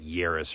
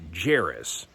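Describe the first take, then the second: First: The name begins with a Y sound. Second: The name begins with a J sound. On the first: This is how it was probably said in ancient times. "I don't really think they pronounced the J's back then, so it'd be like Yaris" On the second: This is the modern way of saying the name. "we would pronounce it Jairus"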